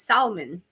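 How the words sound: It is said in an imitated home-accent pronunciation. "she says salmon"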